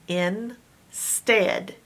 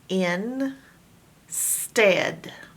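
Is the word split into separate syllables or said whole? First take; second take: whole; split. First: The two syllables are joined without a pause. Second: There is a pause between the two syllables.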